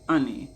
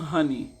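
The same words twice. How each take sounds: First: The word begins without any h sound. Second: The word begins with an audible h sound. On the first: "the H is supposed to be silent. So the king says honey" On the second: "The king says it's not honey"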